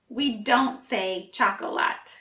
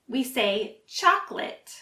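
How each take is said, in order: First: The word is said with three syllables. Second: The word is said with two syllables. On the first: The speaker calls it wrong. "It looks like there are three syllables" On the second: The speaker calls it right. "we actually only pronounce two"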